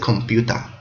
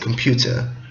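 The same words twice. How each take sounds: First: It is said in a Japanese accent. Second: It is said in a British accent.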